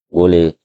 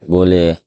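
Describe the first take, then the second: No difference in how they are said.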